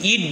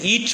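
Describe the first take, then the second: First: The final t is plain and unaspirated. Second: The final t is aspirated, with a puff. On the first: "আমি কিন্তু আসলে ইট বলছি না" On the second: "টিকে কিন্তু আমরা ঠি হিসেবে উচ্চারণ করতেছি"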